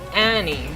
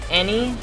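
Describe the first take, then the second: First: The first vowel is open and overly pronounced. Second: The first vowel is said the usual way.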